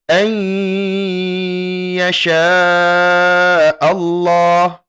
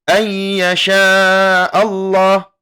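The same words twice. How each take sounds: First: The nasal hum is held for two beats. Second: The nasal hum is cut short quickly. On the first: The speaker calls it right. "didengungkan dan ditahan selama dua harokat" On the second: The speaker calls it wrong. "Tidak dibaca"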